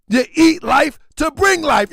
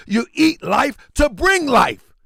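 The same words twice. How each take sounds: First: Louder, preaching force on bring; forceful shouted repeat, stress on bring; emphatic shout. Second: Said in the usual way. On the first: Real, not acted. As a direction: hammer the line home like a preacher. Repeats line, then shouts it.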